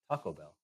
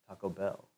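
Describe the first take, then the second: First: The stress falls on Taco. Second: The stress falls on Bell.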